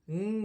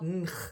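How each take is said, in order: First: The g blends into a nasal ng sound. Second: The g is pronounced as a hard sound. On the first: The speaker calls it right. "It's now pronounced ng" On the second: The speaker calls it wrong. "it's not ng. You don't pronounce it a hard g"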